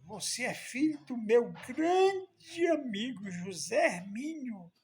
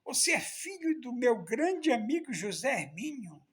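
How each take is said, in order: First: Slow and raised, higher and louder; drawn out, stretching grande with emotion; a moved old man recognising his friend's son; moved exclamation. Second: The same line again, higher and louder but quicker; a moved old man saying it again, still amazed; repeated exclamation. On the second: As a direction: repeat it in full as if hardly believing it. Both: Retold or imitated. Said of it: "olhou bem pra mim e disse".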